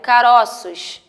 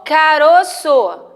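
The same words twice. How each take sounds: First: CAROÇOS slowly, with an open ó in "ro"; CAROÇOS with stressed o wide and open. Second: CAROÇO drawn out slowly with a closed ô in "ro"; CAROÇO with stressed o rounded and closed. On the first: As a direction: say "caroços" as ca-ró-ços, drawn out. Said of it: "ele vai dar o som de aberto". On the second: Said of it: "A tonicidade dela vai ser fechada". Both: Shown as a demonstration.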